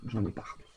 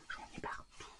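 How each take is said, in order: First: Dropped low and soft, half to herself; low mutter. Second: Breathy whisper of dismay. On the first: Crafter finds paint all over the sheet, low mutter. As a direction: grumble it under your breath. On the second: Crafter repeats her mess to viewers, whispered. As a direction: whisper it like a secret annoyance. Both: Real, not acted.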